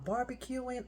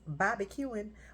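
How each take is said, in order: First: It is said in a neutral accent. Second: It is said in a Texas accent.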